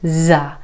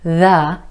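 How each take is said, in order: First: It begins with a z sound. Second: It begins with a voiced th sound.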